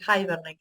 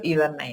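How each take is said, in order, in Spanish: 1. La palabra no se dice con pronunciación del español argentino. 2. La palabra se dice con pronunciación del español argentino. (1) "muchos lo pronuncian de manera diferente, por eso quería decir Hibernate, creo que le dicen" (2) "Yo le digo Hibernate, así bien a, a lo argentino"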